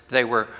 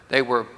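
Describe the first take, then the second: Both takes have the same delivery.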